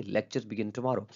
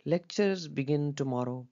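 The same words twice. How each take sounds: First: Slow, falling firmly on "tomorrow"; sure tone. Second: Very slow and higher, "Lectures" drawn out in doubt; doubtful tone. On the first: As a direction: state it with certainty, drop on "tomorrow". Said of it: "तब इसके अंदर हम लोग sure हैं". (यक़ीन भरा सुर, "tomorrow" पर उतार) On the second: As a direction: sound unsure, stretching every word. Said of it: "ये हम डाउट के सेंस में बोलते हैं". (शक भरा, बहुत धीमा और ऊँचा सुर) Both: Shown as a demonstration.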